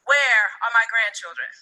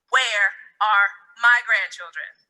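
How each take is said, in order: First: It is asked calmly, without extra emphasis. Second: It is asked with strong, forceful emphasis.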